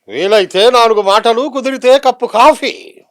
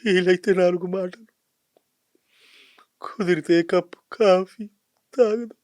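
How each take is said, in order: First: It is said in a heroic tone. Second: It is said in a sad tone.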